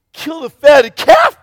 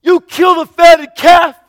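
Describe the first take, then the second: First: High, loud, slow disbelieving question; can't believe what he's hearing; incredulous anger. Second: Even higher, louder, slow outraged question; rising incredulous anger. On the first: Older son questioning the father's feast, angry and incredulous. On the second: Older son repeating his outrage at the feast, louder. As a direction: push the disbelief further. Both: Acted. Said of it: "just angry".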